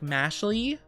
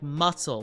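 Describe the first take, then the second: First: The name ends in a clear 'lee' sound. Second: The name ends in an 'sul' sound. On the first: The speaker calls it wrong. "I thought it was like mashly" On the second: The speaker calls it right. "apparently it's supposed to be pronounced like muscle"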